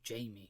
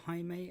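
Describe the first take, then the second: First: The name is said like English Jamie. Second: The name is said with Spanish pronunciation. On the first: The speaker calls it wrong. "treats his name like we would do Jamie" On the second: The speaker calls it right. "that is the original Spanish pronunciation for that name"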